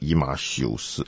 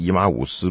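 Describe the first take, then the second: First: The third syllable is said as 'xiu'. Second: The third syllable is said as 'wu'. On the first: This is how someone else says it. "不知道他为什么念以马修斯" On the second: This is how the speaker says it. "我是念以马忤斯"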